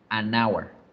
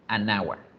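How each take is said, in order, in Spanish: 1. Un sonido n une el artículo con hour. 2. Un sonido n une el artículo con hour.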